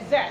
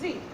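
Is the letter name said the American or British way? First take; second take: British; American. First: The letter is named the British way. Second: The letter is named the American way. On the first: "but the British says Z" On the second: "this American dot, or rather, that says Z"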